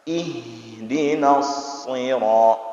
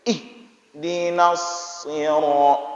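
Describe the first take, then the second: First: The h breath flows smoothly into the next syllable. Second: The h is cut off sharply, like a startled exclamation. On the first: The speaker calls it right. "Huruf H itu huruf yang jalan. ... Jalan" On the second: The speaker calls it wrong. "lagi orang terkejut. ... Enggak boleh seperti itu"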